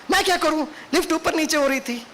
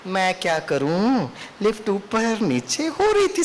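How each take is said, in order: First: Higher, sharp defensive excuse; angry, egoistic excuse. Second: Slow, gentle and unhurried; calm excuse. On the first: Lecturer replaying her irritated excuse to Baba, in anger. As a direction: snap the excuse back with ego. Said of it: "गुस्से में बोल रहे, ego में बोल रहे हैं". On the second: Lecturer showing the calm way to answer the driver, slowly and gently. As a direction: say it calmly, without ego. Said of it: "मैं क्या बोल सकता था?". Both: Retold or imitated.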